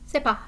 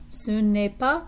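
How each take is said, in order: First: The 'ne' is dropped, giving c'est pas. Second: The 'ne' is pronounced between ce and est. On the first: "they might just shorten that down to c'est pas" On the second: "instead of saying ce n'est pas"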